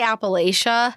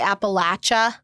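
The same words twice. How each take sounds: First: It is said the Colorado way. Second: It is said another regional way.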